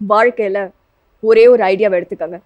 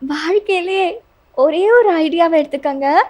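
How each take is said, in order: First: The voice is pitched like a man's. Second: The voice is husky and breathy. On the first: "மேல் version" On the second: "husky வாய்ஸ்ல"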